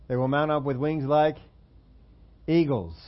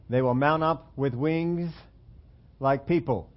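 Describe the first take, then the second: First: "They will mount up with wings like eagles" with a little pause before "eagles" and a falling close on it; corrected verse. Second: Slow, mock-earnest "They will mount up with wings like people" with weight on "mount"; deliberate misquote. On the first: Preacher gives the congregation the right version of the verse, with a measured pause before "eagles". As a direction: set up "like" and deliver "eagles" as the payoff.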